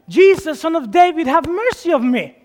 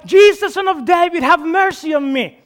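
First: It is yelled loudly. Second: It is yelled even more loudly.

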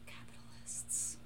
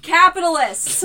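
First: It is said at normal volume. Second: It is said loudly.

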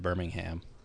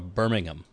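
First: The final syllable is a full 'ham'. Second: The final syllable is reduced and weak. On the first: The speaker calls it wrong. "because the word ham is right there at the end, and if you have the word ham, you want to pronounce it" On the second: The speaker calls it right. "I think it's more of a Birmingham"

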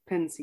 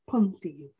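First: The first syllable sounds like 'pen'. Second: The first syllable sounds like 'pon'. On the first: The speaker calls it right. "it's supposed to be pensive, like you're thinking" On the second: The speaker calls it wrong. "which I've always found a weird pronunciation"

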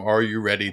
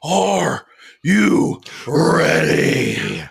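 First: It is said at a normal volume. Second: It is said louder, with more energy.

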